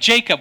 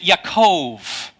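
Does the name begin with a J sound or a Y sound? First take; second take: J sound; Y sound. First: The name begins with a J sound. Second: The name begins with a Y sound. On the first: "what do we do with names like Jacob?" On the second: "you would pronounce it Yaakov"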